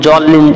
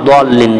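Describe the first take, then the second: First: The word begins with a z-like sound. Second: The word begins with a d-like sound. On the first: The speaker calls it wrong. "জল্লিন কিন্তু না" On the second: The speaker calls it right.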